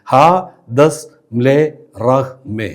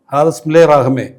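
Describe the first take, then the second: First: "ഹാ ദസ് മ്ലേ റഹ്മേ" with a pause after each syllable. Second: Said in the usual way. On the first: Shown as a demonstration. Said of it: "അഞ്ച് സ്വരാക്ഷരങ്ങൾ മാത്രം". ("ഹാ ദസ് മ്ലേ റഹ്മേ" ഓരോ അക്ഷരവും നിർത്തി നിർത്തി) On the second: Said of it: "അഞ്ച് സ്വരാക്ഷരങ്ങൾ".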